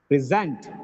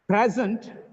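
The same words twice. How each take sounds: First: The stress is on the second syllable. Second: The stress is on the first syllable. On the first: It is used as a verb. "The next one is verb" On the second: It is used as a noun. "First is noun"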